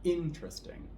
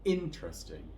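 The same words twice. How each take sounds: First: The stress is on the first syllable. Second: The same.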